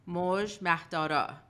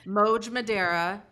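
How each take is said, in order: First: The name is said with its native pronunciation. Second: The name is said with an American pronunciation. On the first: "authentically known as" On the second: "Let's pronounce it American"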